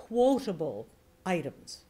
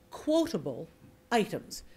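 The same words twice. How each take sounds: First: "quotable" set slightly apart from "items"; slight voice shift. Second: "quotable" set off by a beat on each side; pauses around QUOTABLE. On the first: Coach showing how to mark quoted items, slight voice shift. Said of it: "shift your voice slightly". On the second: Coach demonstrating spoken quote marks, pauses around "quotable". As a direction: stop before and after "quotable". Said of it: "I stopped before the word and I stopped after the word". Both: Shown as a demonstration.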